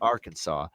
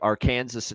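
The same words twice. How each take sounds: First: The ending sounds like 'saw', not rhyming with Kansas. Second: The ending sounds like 'sus', rhyming with Kansas. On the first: The speaker calls it right. "of course, we know it's Arkansas" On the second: The speaker calls it wrong. "if it was pronounced the way it was spelled"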